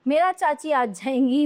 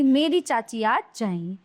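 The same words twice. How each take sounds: First: "मेरा" prominent, rising end; "मेरा" read as the faulty form; wrong example. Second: "मेरी" prominent, then settling; correct example. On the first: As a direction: leave "जाएंगी" up in the air. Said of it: "ये तो अशुद्ध वाक्य हैं". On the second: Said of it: "ये शुद्ध हैं". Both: Shown as a demonstration.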